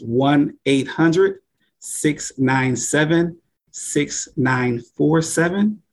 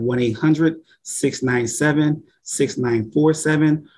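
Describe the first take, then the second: First: The number is said very slowly. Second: The number is said at normal speed.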